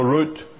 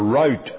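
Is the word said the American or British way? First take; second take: British; American. First: It is said with the speaker's British pronunciation. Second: It is said with an American pronunciation. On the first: "saying it the old way route" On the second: "I think you will pronounce it here in America"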